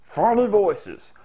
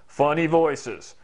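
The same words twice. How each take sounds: First: Higher, slow silly voice; raised, drawn-out comic voice; funny voice. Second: Slow, lightly silly voice; drawn-out, mildly goofy delivery; funny voice. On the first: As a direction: stretch it out in a higher goofy voice. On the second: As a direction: nearer normal pitch, stretched comically. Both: Shown as a demonstration. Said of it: "using funny voices".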